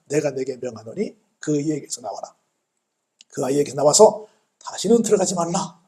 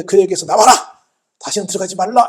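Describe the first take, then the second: First: Restrained retelling of a command; solemn command. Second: Louder mock order to a spirit; forceful command. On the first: Retold or imitated. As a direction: recite the order with measured authority. (차분하게 읊는 명령조) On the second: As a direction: drive it out with a firm, raised voice. (목소리 높여 명령하듯이) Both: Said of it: "귀신을 향해서 명령하시잖아요".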